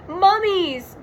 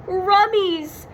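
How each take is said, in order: First: High, loud scared yell; Shaggy yell. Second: High cartoon-dog yell with R for M; Scooby yell. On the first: Acted. Shaggy sees the mummies, frightened high yell. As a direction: shout the word in alarm. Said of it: "yelled Shaggy". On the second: Scooby spots the mummies, scared dog-voice yell. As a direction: yelp it like a scared Great Dane. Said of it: "yelled Scooby".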